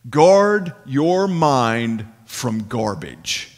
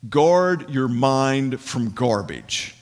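First: It is said noticeably louder, with more force. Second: It is said at normal speaking volume.

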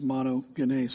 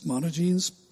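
First: The word is pronounced with Greek sounds. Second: The ending rhymes with the English word jeans. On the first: "But the Greek pronunciation is monogenes" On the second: "You can read it monogenes if you want. Skinny jeans"

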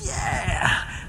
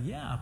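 First: It is said with eager excitement. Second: It is said with reluctant, uneasy acceptance.

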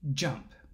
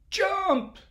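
First: The word is said at normal volume. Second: The word is said at raised volume. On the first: "he said to the flea" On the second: "So he said it louder"

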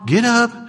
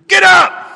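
First: It is said softly and gently. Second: It is said as a loud shout. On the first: A caring parent is coaxing someone awake. "Wasn't like your mom" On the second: A commander is giving an order. "It's a military shout"

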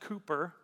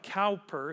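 First: The first syllable rhymes with 'too'. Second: The first syllable rhymes with 'now'. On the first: The speaker calls it right. "pronounced Cooper" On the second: The speaker calls it wrong. "His name looks like Cowper"

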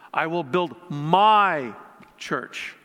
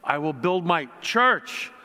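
First: The word 'my' is stressed. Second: The word 'church' is stressed.

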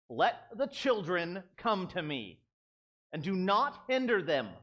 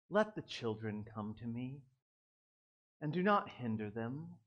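First: It is said in an upset, indignant tone. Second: It is said in a calm, gentle tone.

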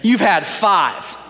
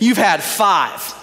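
First: The words sound harsh and accusing. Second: The words sound harsh and accusing.

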